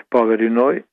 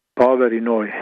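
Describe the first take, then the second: No difference in how they are said.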